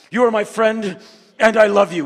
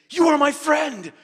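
First: High, loud, overblown sincerity; mock earnest declaration. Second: High, loud heartfelt shout; emotional declaration. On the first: Shown as a demonstration. Showing how men can't say it, loud and overblown. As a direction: say it like it's too much. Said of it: "We just can't say". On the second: Retold or imitated. Kim the minder at the airport, shouting his friendship. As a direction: burst out with it like a hug. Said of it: "He said".

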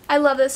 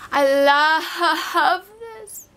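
First: Said in the usual way. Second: I love this stretched slow, with a swooning cry in the voice; drawn-out gush. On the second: Real, not acted. Gushing to viewers over the palette she finally owns, slow swoon. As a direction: melt over the words, dragging each one out.

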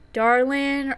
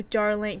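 First: "Darlin" ending in a plain n; dropped G. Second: "Darling" with a full ng ending. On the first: Player weighing two spellings, "Darlin" with the G dropped. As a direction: say "Darlin" with no g sound at the end. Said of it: "or should we do Darling?". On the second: Player weighing two spellings, "Darling" with the final ng sounded. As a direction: finish "Darling" on ng rather than n. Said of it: "Should I do with the G then". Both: Shown as a demonstration.

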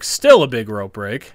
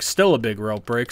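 First: Indignant, pushed louder; louder protest. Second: Said in the usual way. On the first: Real, not acted. Gamer protesting to the game, louder. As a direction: insist it to the screen.

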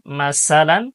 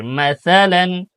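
First: Said in the usual way. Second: মাসালান with a soft th in place of the s; soft tha. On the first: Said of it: "সা যেন না হয়". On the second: Shown as a demonstration. Teacher showing the right soft tha. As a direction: put the tongue to the teeth for the সা of মাসালান. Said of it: "সা নরম করে".

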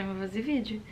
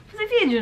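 First: Softer, flatter echo of the line; resigned repeat. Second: High, loud burst on fazer; excited decision. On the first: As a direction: settle back as if shrugging. Repeats decision, second low and resigned. (repetição baixa e resignada) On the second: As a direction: announce it like a sudden great idea. Repeats decision, first high and bright. (decisão animada, aguda e mais alta) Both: Real, not acted.

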